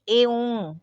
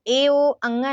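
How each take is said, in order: First: It ends with a short nasal sound. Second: It ends with a full spoken syllable 'anga'. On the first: The speaker calls it right. "बोलेंगे ए ओं" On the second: The speaker calls it wrong. "नहीं बोलेंगे"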